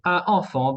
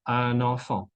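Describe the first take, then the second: First: Un enfant with no n between; un as a bare nasal vowel, then enfant; missing liaison. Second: Un enfant linked with an n; liaison in N. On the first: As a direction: split "un enfant". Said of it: "en lugar de decir un enfant". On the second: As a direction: say "un enfant" as un-nanfan. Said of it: "guarda su sonido N". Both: Shown as a demonstration.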